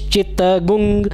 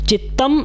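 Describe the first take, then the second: First: The word ends with a nasal 'gum' sound. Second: The word ends with a plain 'm' sound. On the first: "ग्वंग भी पढ़ सकते हैं" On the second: "चित्तम ऐसे माँ के उच्चारण में भी हलंत के साथ"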